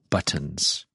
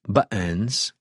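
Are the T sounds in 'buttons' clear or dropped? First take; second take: clear; dropped. First: The double T is pronounced clearly. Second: The T sounds are dropped, New England style. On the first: "lots of people here don't say buttons. There's two T's" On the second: "in New England, ... Here's how they'll say it"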